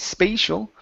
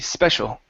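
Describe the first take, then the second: First: The first vowel sounds like 'ay' in space. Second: The first vowel is a short 'e' sound. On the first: The speaker calls it wrong. "Instead of space" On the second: The speaker calls it right. "it's eh, short e"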